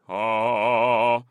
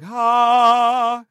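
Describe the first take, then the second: First: The vowel has a dark, deep tone. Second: The vowel has a light, bright tone.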